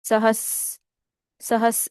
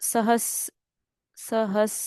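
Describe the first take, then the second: No difference in how they are said.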